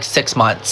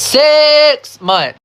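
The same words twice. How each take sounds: First: Said in the usual way. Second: SIX high, loud and drawn out; high-pitched, incredulous hit on SIX; stress on SIX. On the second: Real, not acted. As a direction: punch and stretch the word SIX in disbelief. Repeats the figure in disbelief.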